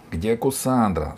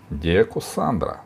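First: Slightly raised, slow demanding cry; a restrained girl's cry; girl calling out. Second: Said in the usual way. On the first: A narrator's reading. Girl questioning the robbers, mild cry. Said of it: "закричала Алиса". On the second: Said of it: "спросил Сила".

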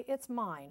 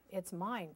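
First: Higher, firmer goose's correction; honked claim. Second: Mild, understated duck's claim; quacked claim. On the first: Goose contradicts Duck to the bluebird, honking. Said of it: "honked Goose". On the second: Duck answers the bluebird's praise, lightly quacking. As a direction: claim it evenly, with little push. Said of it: "quacked Duck". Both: A narrator's reading.

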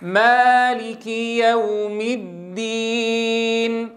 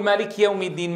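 First: "مالك" with the kasra on the kaf fully voiced, slow and chanted; correct kaf vowel. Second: "مالك" said quickly with the kaf vowel swallowed; wrong version. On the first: Teacher modelling the full kasra under the kaf. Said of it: "لاحظوا الفرق بين الأدائين". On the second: Teacher showing students the mistake to avoid. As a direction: rush "مالك" and drop the kasra. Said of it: "ما بنقول". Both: Shown as a demonstration.

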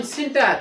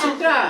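First: সিন্টার with the r at the end; local final R. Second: সিন্ট্রা ending on an open ah, no final r; British dropped R. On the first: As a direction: say সিন্টার, sounding its last r. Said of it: "কি বলি আমরা?". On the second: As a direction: say সিন্ট্রা British-style, last r silent. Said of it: "ব্রিটিশরা যদি এই সিন্টার বলে". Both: Shown as a demonstration.

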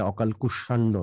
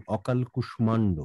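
First: কুষ্মাণ্ড said as কুশান্ড, m dropped; wrong pronunciation. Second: অকাল কুষ্মাণ্ড with the m sounded in কুষ্মাণ্ড; correct pronunciation. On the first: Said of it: "নয়". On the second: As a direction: model অকাল কুষ্মাণ্ড, keep the m. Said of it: "এটা অকাল কুষ্মাণ্ড নয়". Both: Shown as a demonstration.

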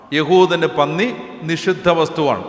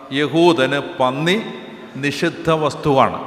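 First: Said in the usual way. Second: Drawn out, each word set apart slowly; slow it down so they catch every word; slow emphatic dictation; slow, spelled-out first take. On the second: Shown as a demonstration.

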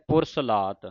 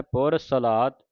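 First: ਪੁਰ ਸਲਾਤ said with pur; ਪੁਰ ਸਲਾਤ as the common error; wrong pronunciation demo. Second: ਪੁਰ ਸਲਾਤ said por salat with s and l joined; ਪੁਰ ਸਲਾਤ as taught; correct pronunciation. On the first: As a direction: show the mistake ਪੁਰ ਸਲਾਤ with u. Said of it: "ਕਈ ਸੰਗਤਾਂ ਪੜ੍ਹ ਜਾਂਦੀਆਂ". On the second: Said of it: "ਸ਼ੁੱਧ ਉਚਾਰਨ". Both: Shown as a demonstration.

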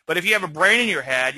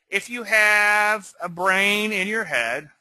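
First: Said in the usual way. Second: Slow, leaning hard on "have"; "have" drawn out with a rising end, teasing; stress on have. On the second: Shown as a demonstration. Teacher teasing traders about common sense, stressing "have". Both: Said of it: "we could argue that some people don't".

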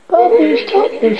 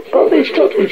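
First: High-pitched scolding, only slightly raised; mild angry shout. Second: High, mildly urgent appeal; pleading cry. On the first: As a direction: call a child sharply to order. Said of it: "she shouted". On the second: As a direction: plead with a child to stop. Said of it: "she cried". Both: A narrator's reading.

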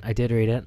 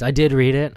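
First: Said in the usual way. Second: Did punched and louder; stress on did. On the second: Real, not acted. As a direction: hit the word did. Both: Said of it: "Just kidding, kids".

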